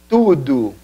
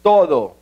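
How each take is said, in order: First: Tudo said tudu with a u ending; Portuguese tudo. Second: Said in the usual way. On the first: Shown as a demonstration. (tudo pronunciado tudu) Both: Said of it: "la palabra".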